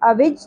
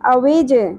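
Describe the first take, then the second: First: The final j is plain, with no echo. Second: The final j has a short echoing bounce. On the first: The speaker calls it wrong. "اوج نہیں پڑھنا" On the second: The speaker calls it right. "قلقلہ کے ساتھ"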